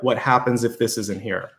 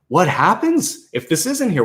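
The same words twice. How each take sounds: First: It is said in a fearful, worried tone. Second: It is said in an excited, hopeful tone. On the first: Losing this would be a disaster. The speaker calls it wrong. "that tie or that fear" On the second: Losing this opens new options. The speaker calls it right. "Why not flip it around"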